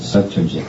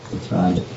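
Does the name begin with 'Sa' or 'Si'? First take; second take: Sa; Si. First: The first syllable is pronounced 'Sa'. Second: The first syllable is pronounced 'Si'. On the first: The speaker calls it wrong. "The narrator pronounced it Satrajit" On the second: The speaker calls it right. "but it's Sitrajit"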